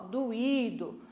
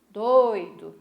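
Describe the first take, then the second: First: "doído" drawn out in three syllables, stress on Í; hiatus in doído. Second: "doido" in two syllables, stress on DOI, oi glided together; diphthong in doido. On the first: Teacher contrasting the word with its diphthong twin, "doído" as do-Í-do. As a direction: split the vowels of "doído": do-Í-do. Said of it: "no doído separou". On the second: Teacher contrasting the word with its hiatus twin, "doido" as DOI-do. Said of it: "No doido nós temos um ditongo". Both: Shown as a demonstration.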